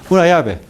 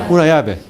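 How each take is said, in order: Both takes have the same delivery.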